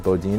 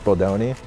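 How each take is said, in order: First: The second syllable has an 'ee' vowel. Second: The second syllable has an 'oh' vowel. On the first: The speaker calls it wrong. "I don't know how people always read it as Bodini" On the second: The speaker calls it right. "it's Bodoni"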